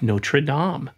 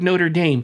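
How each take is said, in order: First: Notre Dame is said as the film's characters say it. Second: Notre Dame is said the way most people say it. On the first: "I'm gonna pronounce it the way the characters in the movie pronounce it" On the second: "Most people I know go like"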